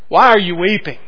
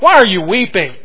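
First: It is asked in a knowing, rhetorical tone. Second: It is asked in a hard, sharp tone. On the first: The asker implies there is no reason to weep. "a rhetorical question?" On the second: The asker is impatient with the grief. "Was there a harder edge to it?"

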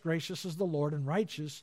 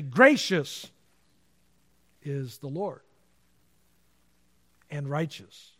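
First: It is read flatly, with no word emphasized. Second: It is read expressively, with some words emphasized. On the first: "I didn't read it really with any inflection on any words" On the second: "if I'm going to reread it and meditate on it"

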